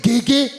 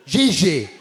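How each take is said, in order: First: Gigi with hard g sounds, rising. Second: Gigi with soft zh sounds, falling. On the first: Testing the name on the audience, hard g questioning. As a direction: try "Gigi" as ghee-ghee, asking. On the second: Testing the name on the audience, soft zh version. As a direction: say "Gigi" as zhee-zhay, settled. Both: Shown as a demonstration. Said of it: "Is that how you pronounce it?".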